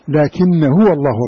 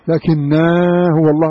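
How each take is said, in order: First: The first word ends in a short vowel. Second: The first word ends in a long vowel. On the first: The speaker calls it right. "لا" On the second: The speaker calls it wrong. "هل تقرأها كذا في كما هي مرسومة؟"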